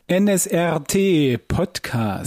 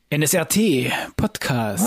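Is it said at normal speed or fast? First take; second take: normal; fast. First: It is said at a normal pace. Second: It is said very fast.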